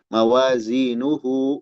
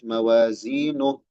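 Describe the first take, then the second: First: The word ends with the full syllable hu. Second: The word ends in a bare h sound. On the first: The speaker calls it wrong. "jangan mawazinuhu. Nah, itu keliru baca seperti itu" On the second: The speaker calls it right. "Kalau berhenti nuh"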